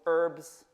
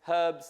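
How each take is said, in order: First: American style, with the h sound dropped. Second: British style, with the h sound pronounced.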